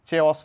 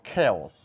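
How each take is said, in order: First: The word begins with a ch sound. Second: The word begins with a k sound. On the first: The speaker calls it wrong. "চেওস নয়" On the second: The speaker calls it right. "বলবো খেওস"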